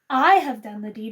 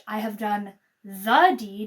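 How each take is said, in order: First: The stress is on "I". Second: The stress is on "deed".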